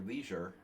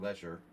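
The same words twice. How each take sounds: First: The word is said the American way. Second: The word is said the English way.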